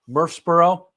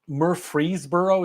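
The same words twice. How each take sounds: First: The name is pronounced the clipped local way. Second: The name is pronounced literally, every part in full. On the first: The speaker calls it right. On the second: The speaker calls it wrong. "is how it's written"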